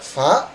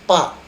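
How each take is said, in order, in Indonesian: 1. Suku kata itu diawali bunyi f yang berdesah. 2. Suku kata itu diawali bunyi p yang terhenti. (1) "Harusnya dibaca fa" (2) "menjadi pa"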